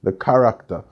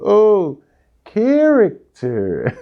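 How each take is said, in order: First: "character" with open a and r-less "-ta" ending; Jamaican pronunciation. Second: High, loud, drawn-out Canadian "character"; imitated Canadian accent. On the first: Retold or imitated. Retelling the word the class couldn't understand, Jamaican "character". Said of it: "nobody in the class could understand". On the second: Classmate finally getting the word, exaggerated Canadian accent. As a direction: mimic a Canadian girl's accent, stretched "KEH-rik-ter". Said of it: "And one girl just goes".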